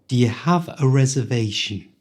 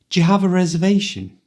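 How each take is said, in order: First: It is spoken slowly and carefully. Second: It is spoken quickly, at full speed.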